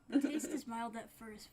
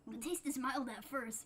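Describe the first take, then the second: First: It is read in the reader's own normal voice. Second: It is read in a put-on character voice. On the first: The speaker calls it wrong. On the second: The speaker calls it right.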